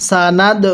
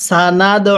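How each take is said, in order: Both takes have the same delivery.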